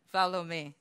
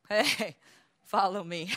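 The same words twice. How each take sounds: First: Said in the usual way. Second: Slow, drawn-out beckoning with a laugh; mock proud recruiter. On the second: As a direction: lure them in, lazily and smug. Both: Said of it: "they see other people coming and says".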